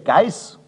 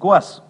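First: It is said in Standard German with an ei diphthong. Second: It is said in Bavarian with a dialect vowel. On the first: "Die hochdeutsche Geiß" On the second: "zur bayerischen Gors"

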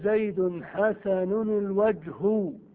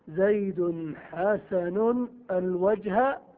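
First: The last word ends with a u vowel. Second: The last word ends with an a vowel. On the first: The noun is the subject of the adjective. "ويجوز أن ترفع معمولها فتقول" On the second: The noun is treated like a direct object. "ويجوز أن تنصب المعمول"

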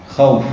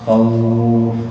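First: The vowel is not lengthened at all. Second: The vowel is lengthened for four counts. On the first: "الوقف بدون مد مثل الوصل" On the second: "أو أربعة"

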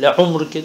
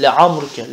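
First: The word begins with a 'u' vowel. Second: The word begins with an 'a' vowel. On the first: The speaker calls it wrong. "Le umruke değil" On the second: The speaker calls it right. "meftuhası istimal edilir"

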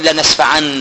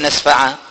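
First: The word ends in an n sound. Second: The word ends in a long a vowel. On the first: This is the form used when joining to the next word. The speaker calls it wrong. "ولا تقل لنسفع" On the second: This is the form used when stopping on the word. The speaker calls it right. "تقف عليها كده"

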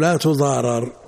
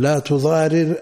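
First: The verb is vowelled as a passive form. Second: The verb is vowelled as an active form. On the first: The mother is the one harmed. "أو إلى المفعول" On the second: The mother does the harming. "الفعل مسند إلى الفاعل"

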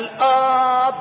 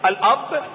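First: The first vowel is drawn out long. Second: The first vowel is said short. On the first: It means the divine Father. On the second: It means a natural father through lineage.

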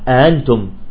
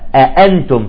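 First: The second glottal stop is softened. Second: The second glottal stop is pronounced fully. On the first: The speaker calls it wrong. "سهل الثانية" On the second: The speaker calls it right. "من حقها التحقيق"

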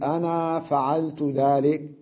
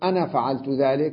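First: The final vowel of 'ana' is drawn out long. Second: The final vowel of 'ana' is kept short. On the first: "من العرب من يمدها" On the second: "بدون ألف"

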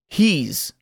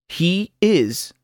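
First: The words merge into one short syllable. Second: Both words are said fully and separately. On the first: "luego contraído con el pronombre personal" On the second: "Primero oirá el verbo sin contracción"

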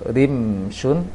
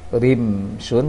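No difference in how they are said.

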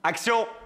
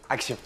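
First: The word is said loudly, with force. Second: The word is said softly, without force. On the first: The speaker calls it right. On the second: The speaker calls it wrong.

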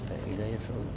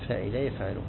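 Both takes have the same delivery.

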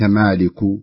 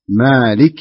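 First: The word is said with altered vowels. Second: The word is said with its standard vowels. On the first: The speaker calls it wrong. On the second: The speaker calls it right.

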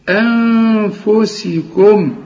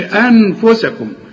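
First: The n sound is hidden and nasalized. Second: The n sound is pronounced clearly. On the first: The speaker calls it right. "ولنون اخفيها" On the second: The speaker calls it wrong. "وما تظهرهاش وما تقولش انفسكم"

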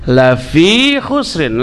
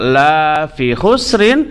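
First: The first word has a short vowel. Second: The first word has a long vowel. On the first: Humans are surely at a loss. The speaker calls it right. "la pendek. Jangan dibaca panjang" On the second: Humans are not at a loss. The speaker calls it wrong. "la yang panjang disebut la nafi, artinya tidak"

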